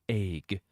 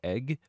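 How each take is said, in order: First: The vowel is a drawn-out 'ay' sound. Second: The vowel is a short 'eh' sound. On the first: The speaker calls it wrong. "not egg. If you pronounce it as egg, like A Y G" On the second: The speaker calls it right. "pronounce it like egg"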